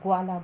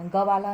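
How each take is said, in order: First: The g is joined directly to the next sound. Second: The g is said as a separate full syllable. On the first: The speaker calls it right. "ग्वाला बोलना है" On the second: The speaker calls it wrong. "ग वाला नहीं बोलना"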